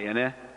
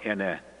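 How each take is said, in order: First: The word moves from low to high tone. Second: The word is said on a low tone. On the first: It means a kind of tree. "pronounce it with low high" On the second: It means the number four. "pronounce it with low tone"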